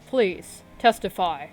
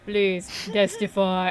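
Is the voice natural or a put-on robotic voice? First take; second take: natural; robotic. First: It is said in a natural voice. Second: It is said in a put-on robotic voice.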